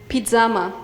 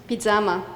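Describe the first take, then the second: The two takes are said the same way.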